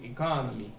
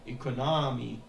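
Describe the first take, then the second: First: The stress is on the second syllable. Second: The stress is not on the second syllable. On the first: The speaker calls it right. "Il faut mettre le stress sur le, le deuxième O" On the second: The speaker calls it wrong. "c'est plus la même chose"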